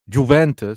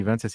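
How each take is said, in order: First: The first syllable sounds like the start of 'juvenile'. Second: The first syllable does not sound like 'juvenile'. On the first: The speaker calls it wrong. "he goes Juventus, like Ju, like juvenile" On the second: The speaker calls it right. "Instead of saying Juventus"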